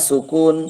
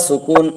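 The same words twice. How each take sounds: Both takes have the same delivery.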